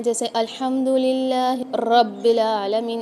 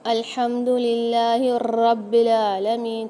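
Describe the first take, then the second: First: अल्हम्दुलिल्लाह रब्बिल आलमीन slowly, with the r of रब्बिल rolled; trilled ra, wrong way. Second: अल्हम्दुलिल्लाह रब्बिल आलमीन very slow, the r in रब्बिल trilled many times; trilled ra, wrong way. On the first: Teacher shows students the wrong trilled recitation, slow. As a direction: roll the r in रब्बिल as a wrong example. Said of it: "इस तरीके से नहीं पढ़ना है". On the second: Teacher warns against rolling the r in Quran recitation. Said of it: "अगर हम इस रॉ को तकरार करने लगे". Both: Shown as a demonstration.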